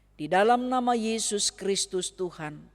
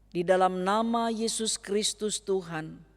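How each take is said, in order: The two takes are said the same way.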